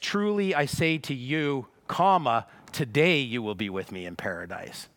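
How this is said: The break comes right before the word 'today'. Being in paradise happens today. The speaker calls it right. "But what we see here is"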